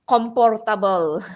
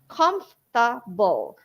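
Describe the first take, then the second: First: The middle consonant is a P sound. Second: The middle consonant is an F sound. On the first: The speaker calls it wrong. "they change the F sound to P sound" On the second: The speaker calls it right. "just three syllables"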